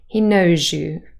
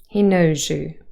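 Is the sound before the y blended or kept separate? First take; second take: blended; blended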